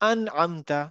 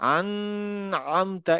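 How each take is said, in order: First: The n is short and clear, without nasal hum. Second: The n is held with a nasal hum. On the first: The speaker calls it right. "আমি ওখানে থামলাম না" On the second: The speaker calls it wrong. "আমি কিন্তু বলবো না আন আমতা, এরকম না"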